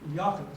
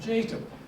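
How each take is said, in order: First: The name is said the native, non-English way. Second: The name is said the English Canadian way. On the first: The speaker calls it right. "I quickly uh, learned to pronounce it properly" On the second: The speaker calls it wrong. "I'm Canadian, right? I'm Jacob"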